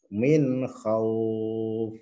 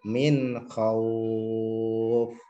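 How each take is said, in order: First: The vowel is held moderately, about four counts. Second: The vowel is held longest, about six counts. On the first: "Dua alif" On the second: "tiga alif ... enam harokat"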